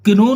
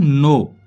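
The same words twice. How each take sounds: First: किनो with an audible k before the n; wrong, k sounded. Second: नो starting straight on n; silent k. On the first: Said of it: "इसे किनो नहीं बोलेंगे". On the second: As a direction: say नो with no k before it. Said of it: "इसको बोलेंगे हम नो". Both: Shown as a demonstration.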